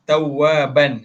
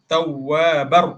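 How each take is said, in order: First: The word ends with a clear n sound. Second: The word ends with an r sound. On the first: "Asalnya tawwaban" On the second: "bunyikan huruf selepas dia"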